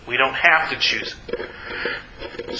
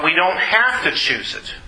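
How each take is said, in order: First: Softer, lower and slower; hushed repeat. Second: Said in the usual way. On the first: Real, not acted. Preacher reassuring listeners they don't have to choose it, hushed. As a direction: ease off, letting it sink in slowly.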